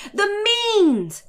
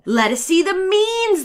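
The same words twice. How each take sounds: First: Much higher, drawn-out exclamation; mock outcry. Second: Higher, slowed demand of pedants; mock cry. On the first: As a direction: parody the pompous savants crying out. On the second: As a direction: sneer out their slow, insistent demand. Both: A narrator's reading. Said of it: "they cried".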